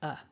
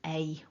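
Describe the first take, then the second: First: The word is reduced to a short 'uh'. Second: The word is said fully, like 'ay'. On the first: The speaker calls it right. "We just want the weak a" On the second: The speaker calls it wrong. "we don't really want that strong a"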